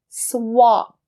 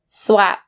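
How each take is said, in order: First: The vowel is an open 'ah' sound. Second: The vowel is a flat 'a' sound. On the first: The speaker calls it right. "ah sound" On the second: The speaker calls it wrong. "don't say swap. Sounds so odd"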